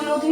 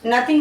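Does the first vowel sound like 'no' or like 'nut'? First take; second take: no; nut. First: The first part sounds like the word no. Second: The first part has a short nut vowel. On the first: The speaker calls it wrong. "इसको नो थिंग नहीं बोलेंगे" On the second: The speaker calls it right. "नथिंग बोलेंगे"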